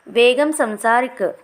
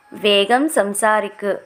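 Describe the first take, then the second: First: Said in the usual way. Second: Slow, clear teacher repeat of వేగం సంసారిక్; slow model repeat. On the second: Shown as a demonstration. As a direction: say it slowly so learners can follow. (నెమ్మదిగా, స్పష్టంగా మళ్ళీ చెప్పడం)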